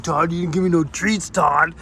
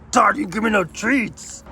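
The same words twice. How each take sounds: First: Lightly voiced grumbling dog; dog's voice complaining. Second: Higher, pleading dog complaint; dog's voice, higher. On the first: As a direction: mildly whine like the dog who got no treats. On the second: Pretend. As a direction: push the dog's whine up a notch. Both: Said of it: "He's like".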